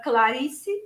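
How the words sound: Brazilian Portuguese accent with an open first A.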